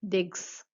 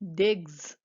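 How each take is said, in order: First: The word ends with a hissing s sound. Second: The word ends with a buzzing z sound. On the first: The speaker calls it wrong. "not digs" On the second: The speaker calls it right. "you're going to be saying digs"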